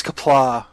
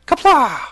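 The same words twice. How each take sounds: First: Said in the usual way. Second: Loud, high war cry; imitated battle yell. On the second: Imitating a puppet actor mid-fight, battle yell. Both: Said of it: "member that yells".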